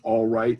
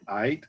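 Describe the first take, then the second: First: Both words are said fully and clearly. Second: The words are slurred together into one. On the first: The speaker calls it right. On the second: The speaker calls it wrong.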